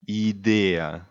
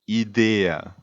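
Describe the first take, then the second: First: It is pronounced the Italian way. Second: The same.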